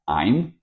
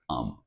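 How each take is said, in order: First: The word is said in full, as I'm. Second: The word is reduced to a short um. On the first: "I am or I'm" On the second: "was pronounced as um"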